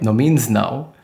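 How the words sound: The three words are run together. The name is one word. "supposed to be one word like"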